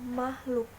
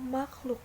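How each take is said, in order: First: The middle consonant is a plain h. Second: The middle consonant is the cluster kh. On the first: The speaker calls it wrong. "lafal tidak bakunya" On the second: The speaker calls it right. "Lafal bakunya"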